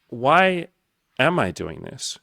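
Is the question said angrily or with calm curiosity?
calm curiosity. It sounds calm, like a genuine question. It is a sincere wish to understand the reason. The speaker calls it right. "Say it as a question"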